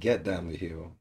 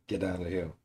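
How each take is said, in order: First: Get and down are said as separate words. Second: Get and down run together as one word.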